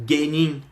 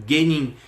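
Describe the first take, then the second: The two takes are said the same way.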